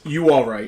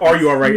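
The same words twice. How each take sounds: First: "You all right?" clipped, the "are" dropped; quick local "You all right?" without "are"; South Jersey "You all right?". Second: Said in the usual way. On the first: Shown as a demonstration. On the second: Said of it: "It's never".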